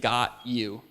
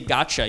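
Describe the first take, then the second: First: The t and y sounds stay separate. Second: The t and y blend into ch. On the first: "you're actually saying got you" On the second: "when you say gotcha"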